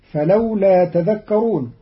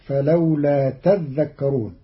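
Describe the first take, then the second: First: Said in the usual way. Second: تذكرون said tadhdhakkarun, the dhal held double; doubled dhal. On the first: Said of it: "قرأ قالون كلمة تذكرون بتشديد". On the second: Shown as a demonstration. Teacher shows Qalun's تذكرون with the doubled dhal. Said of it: "بتشديد الذال".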